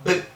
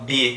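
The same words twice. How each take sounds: First: The b is a bare burst with no vowel. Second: The b is followed by an e vowel. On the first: This is the sound the letter stands for. "só aquele iniciozinho sem vogal nenhuma" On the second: This is the name of the letter. "estou usando o fonema da letra B junto com o suposto E"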